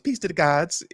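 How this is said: It is said in a put-on Ice Queen voice.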